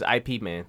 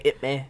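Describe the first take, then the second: First: Slow, spelled-out "I P" before "Man"; "I P" as letters. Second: "Ip Man" with a short i; "Ip" as one syllable. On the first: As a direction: spell out "I P" as two separate letters. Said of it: "but it's I P Man three". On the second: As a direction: say "Ip" as a single word, rhyming with "hip". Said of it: "Most people say Ip Man". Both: Shown as a demonstration.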